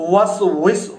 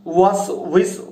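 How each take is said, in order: Both takes have the same delivery.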